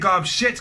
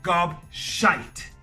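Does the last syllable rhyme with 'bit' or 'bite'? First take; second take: bit; bite. First: The last syllable has a short 'i' sound. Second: The last syllable has a long 'eye' sound. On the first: The speaker calls it wrong. "don't say gobshit, because gobshit does not exist" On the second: The speaker calls it right. "make sure you get the pronunciation right"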